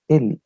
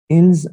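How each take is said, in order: First: The final s sound is silent. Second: The final s sound is pronounced. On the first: The speaker calls it right. "It is always pronounced as il in French language" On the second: The speaker calls it wrong. "I'm just pronouncing it to make you understand. Otherwise, it is not pronounced as ils"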